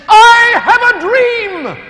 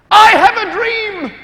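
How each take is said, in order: First: Slow, much higher, loud preacher's cadence; Martin Luther King. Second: Slow, much higher, loud orator's call; Martin Luther King. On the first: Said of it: "he said". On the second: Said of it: "That's what he said". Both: Retold or imitated. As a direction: ring out "I have a dream" like a great orator.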